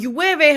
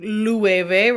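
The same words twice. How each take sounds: First: The word begins with a y sound. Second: The word begins with an l sound. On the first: The speaker calls it right. "y y y sound with the two L's" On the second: The speaker calls it wrong. "you are not saying llueve"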